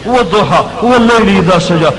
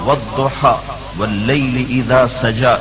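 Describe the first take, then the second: First: It is said fast and breathlessly. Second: It is said slowly and calmly. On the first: The messenger arrived rushing with urgent news. "ये लहजा, ... सांस चढ़ा हुआ है, फूला हुआ है, जबान तेज हो रही है" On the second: This is ordinary recitation. "ये तो तिलावत है"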